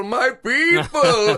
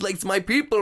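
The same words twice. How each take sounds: First: Louder and slower, drawn out; emphatic, drawn out. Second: Said in the usual way. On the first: Retold or imitated. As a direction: stretch out "my people" with feeling. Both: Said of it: "I said".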